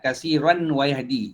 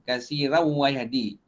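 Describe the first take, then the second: First: The n is pronounced clearly before the w. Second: The n merges nasally into the following w. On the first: The speaker calls it wrong. "Itu uh, bunyi izhar" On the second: The speaker calls it right. "dia berbunyi idgham bila gunnah"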